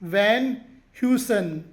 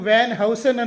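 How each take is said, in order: First: The second word starts with a 'hew' sound. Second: The second word starts with a 'how' sound. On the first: The speaker calls it right. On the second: The speaker calls it wrong.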